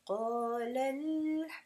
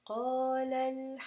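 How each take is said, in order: First: It is said with a marked pitch inflection. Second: It is said flat, with no inflection. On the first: It refers to two people. The speaker calls it right. "you have to show some kind of inflection" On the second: It refers to one person. The speaker calls it wrong. "rather than qalal hamdu, which would be one"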